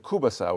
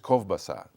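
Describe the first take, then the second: First: The first syllable is a plain oo vowel. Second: The first syllable ends in a V sound. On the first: This is the common regional form. "as opposed to Kubasa, which is K U B A S A" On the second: This is the original Ukrainian form. "the true Ukrainian uh, way to say the name is Kovbasa. It's, uh, it's K O V B A S A"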